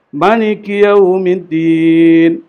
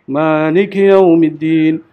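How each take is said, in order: First: The first vowel of Maliki is kept short. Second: The first vowel of Maliki is drawn out long.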